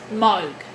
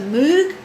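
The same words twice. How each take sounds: First: The name is said differently from its spelling. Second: The name is said the way it is spelled. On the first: This is how the name is actually pronounced. The speaker calls it right. "but it's actually pronounced Moog" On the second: This is the common way people say it. The speaker calls it wrong. "it's often referred to as a Moog because of the M O O G"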